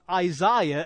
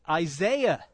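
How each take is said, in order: First: It is pronounced the British way. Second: It is pronounced the American way. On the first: "we talk about Isaiah" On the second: "you say Isaiah"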